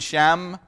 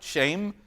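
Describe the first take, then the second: First: The name has a short vowel, rhyming with 'them'. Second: The name sounds like the English word 'shame'. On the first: This is the usual English way to say the name. "if you hear me say shame, I mean Shem" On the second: This is the original pronunciation of the name. "technically that's how you pronounce it"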